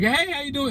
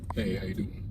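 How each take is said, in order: First: It is said in a lively, expressive voice. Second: It is said in a deeper, flatter voice.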